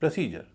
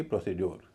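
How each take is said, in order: First: "प्रोसीजर" as pruh-SEE-jer; light vowel, j sound. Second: "प्रोसीड्योर" as pro-see-dyor; full vowels, d sound. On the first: Teacher repeats the right form, "प्रोसीजर" as pruh-SEE-jer. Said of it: "उसका उच्चारण होगा अ". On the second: Teacher cites the common mistake, "प्रोसीड्योर" ending in dyor. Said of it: "न कि प्रोसीड्योर". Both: Shown as a demonstration.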